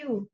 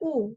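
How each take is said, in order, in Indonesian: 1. Vokalnya adalah bunyi oo panjang. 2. Vokalnya adalah U pendek biasa. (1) "tapi U. Mirip seperti mau bilang O sebenarnya, du- double O" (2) "jadi bukan U"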